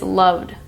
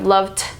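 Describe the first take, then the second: First: The ending is a soft, almost silent D. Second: The ending is a sharp T with air pushed out. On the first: The speaker calls it right. "It's almost silent at the end" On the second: The speaker calls it wrong. "Instead of loved"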